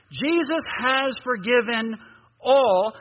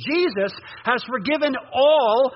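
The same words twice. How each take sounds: First: Slow, deliberate reading with a pause before all; read more slowly. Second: Said in the usual way. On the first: Shown as a demonstration. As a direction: stretch it out and land on all. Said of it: "Let's read that more slowly". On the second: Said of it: "Wait, let me say that again".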